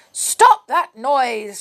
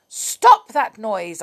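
First: Slow, loud snapped command; cross witch cry. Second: Louder, slower repeat of the order; insist, fed up; cross witch command. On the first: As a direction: shout it down from the window. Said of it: "she cried". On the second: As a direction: witch ordering the bellman to stop. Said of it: "looked crossly out of her window". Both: A narrator's reading.

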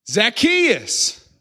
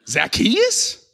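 First: High, drawn-out call; calling out a name. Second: High, rising, disbelieving question; incredulous disgust. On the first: Jesus calls to a man in a tree, calling out high. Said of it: "he calls him by name". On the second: Crowd member scoffs at the chosen man, incredulous. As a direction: repeat the name in mock disbelief. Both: Acted.

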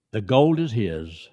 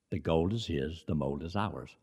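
First: Slow, weighty; The gold is his said slowly with weight on gold; slow emphatic quote. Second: Softer, lower restatement; The gold is his, the mold is ours said softly and low; quiet repeat. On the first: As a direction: lean on gold, said slowly and firmly. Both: Shown as a demonstration.

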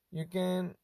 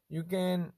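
The two takes are said the same way.

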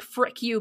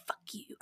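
First: Said in the usual way. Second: Whispered curse. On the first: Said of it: "someone whisper". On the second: Retold or imitated. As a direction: breathe the swear under your breath. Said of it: "I'll hear someone whisper".

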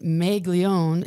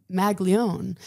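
First: Slow Minnesota "Maglione", first vowel like "may"; Minnesota accent. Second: "Maglione" slowly, first vowel short as in "mag"; standard pronunciation. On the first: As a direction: draw out "Maglione" as "May-glione", Minnesota style. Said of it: "I had a horrible Minnesota accent". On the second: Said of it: "he's like". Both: Retold or imitated.

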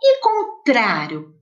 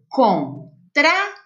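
First: Said in the usual way. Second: "contrário" split slowly into its syllables; separado em sílabas. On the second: Shown as a demonstration. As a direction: pause after each syllable of "contrário". ("contrário" devagar, pausando entre as sílabas) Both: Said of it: "Quantas sílabas tem?".

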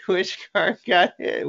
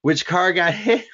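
First: High, eager repeat; curious crowd voice; excited. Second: Laughing, rising question; asking with a laugh; excited. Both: Retold or imitated. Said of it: "We're like".

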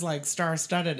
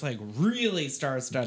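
First: Said in the usual way. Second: "really" drawn out for emphasis; stress on REALLY. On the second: Real, not acted. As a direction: stretch the word "really" slowly before "star-studded". Stepping up from first round.

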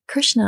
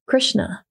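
First: "Krishna" repeated higher, puzzled; questioning echo. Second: Said in the usual way. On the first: Retold or imitated. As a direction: echo "Krishna" back, a bit higher, confused. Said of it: "And he's like". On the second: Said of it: "Ram Dass again says".

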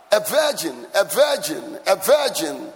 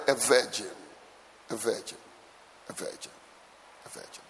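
First: VIRGIN hit loud and firm each time; repeated with stress on VIRGIN; emphatic repetition. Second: VIRGIN repeated low, fading to a whisper; soft, low echoes of VIRGIN dying away; hushed emphasis. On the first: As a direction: punch VIRGIN in evenly spaced, forceful repeats. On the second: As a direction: drop VIRGIN softer with every repeat. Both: Real, not acted. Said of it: "Can I emphasize that word".

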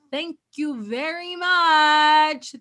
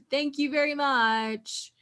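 First: Slow, louder "Thank you very much" with weight on "much"; emphatic thanks. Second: Said in the usual way. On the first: Shown as a demonstration. Reacting to the show, she thanks the girl with slow emphasis.

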